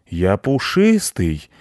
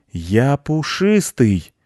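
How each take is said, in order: First: Slow, drawn-out feline protest; mildly outraged cat voice; indignant cat. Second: High, slow, drawn-out cat protest; alarmed, offended cat; outraged cat. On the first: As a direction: stretch it out like an offended cat. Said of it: "возмутился кот". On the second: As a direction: yowl it slowly, pitched up. Cat protests again at being eaten. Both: A narrator's reading.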